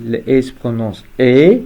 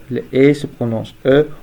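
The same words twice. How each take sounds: First: Last E said as a clear French é, "ay"; final E as "ay". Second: Last E said as a schwa, French "eu"; final E as "uh". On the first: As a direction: end on E as a full "ay" vowel. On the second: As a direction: end on E as a neutral "uh". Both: Shown as a demonstration.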